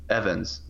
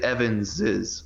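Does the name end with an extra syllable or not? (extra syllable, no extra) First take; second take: no extra; extra syllable. First: The name ends without an extra syllable. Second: The name ends with an extra syllable. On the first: "I've heard people just say Evans" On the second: "you would say Evans's, right? But lately that started to sound weird to me"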